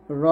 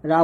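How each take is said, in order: First: র with rounded, full o; heavy "ro" sound. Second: রা with an open, light a; thin "ra" sound. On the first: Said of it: "র হয়". (র মোটা করে, গোল ও-ধ্বনিতে) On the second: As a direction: say রা thin, lips unrounded. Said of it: "রা বলা যাবে না". (রা পাতলা করে, আ-ধ্বনিতে) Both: Shown as a demonstration.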